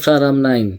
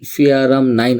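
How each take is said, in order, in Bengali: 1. এটি স্থানীয় লোকেরা যেভাবে বলে সেভাবে বলা হয়। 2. এটি বিদেশিরা যেভাবে বলে সেভাবে বলা হয়।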